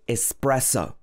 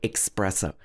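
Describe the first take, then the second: First: The word begins with a plain s sound. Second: The word begins with a ks sound. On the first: The speaker calls it right. "in English we normally say espresso" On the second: The speaker calls it wrong. "I often say espresso because it looks quite similar to express"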